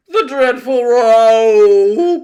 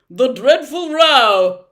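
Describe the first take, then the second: First: Very loud, drawn-out wail; anguished cry. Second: Loud, high, eager answer; bright volunteering. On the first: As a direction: wail it high and slow in anguish. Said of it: "cried the anguished din". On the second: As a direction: pipe up brightly, stretching the last word. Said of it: "volunteered the humbug brightly". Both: A narrator's reading.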